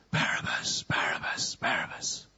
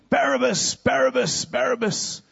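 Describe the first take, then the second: First: Softer, whispered name; faint distant whisper. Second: High crowd chant; crowd shouting. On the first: Prisoner hears his name through the bars, whispered. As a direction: whisper it like a far-off crowd. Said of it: "he just hears". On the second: Crowd screaming for the prisoner, high-pitched chant. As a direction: cry the name out like a mob. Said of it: "they're shouting and screaming". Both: Acted.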